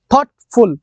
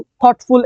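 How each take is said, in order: First: thoughtful split into two beats, থট, ফুল; two separate syllables. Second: Said in the usual way. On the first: Shown as a demonstration. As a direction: break thoughtful after থট with a short gap. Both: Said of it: "two syllable".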